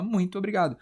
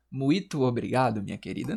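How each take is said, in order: First: "muito" with its nasal glide, muin-to; usual nasal form. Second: "Muito" without nasal, mu-i-to, in lower-pitched polite thanks; mock thanks with "Muito" said as "mu-í-to"; wrong, oral vowels. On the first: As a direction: correct it to a nasal "muĩ-tu" obrigado. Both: Shown as a demonstration. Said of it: "Não, você fala muito obrigado".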